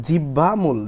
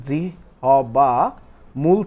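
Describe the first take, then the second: First: Said in the usual way. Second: জিহ্বা drawn out syllable by syllable, pause before মূল; slow syllable breakdown. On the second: Shown as a demonstration. Teacher breaking down a term for the class, slow and segmented. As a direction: stretch জিহ্বা into separate beats, then মূল.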